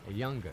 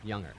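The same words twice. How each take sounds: First: A hard g follows the ng sound. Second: No hard g follows the ng sound. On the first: The speaker calls it right. "it becomes younger" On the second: The speaker calls it wrong. "not younger"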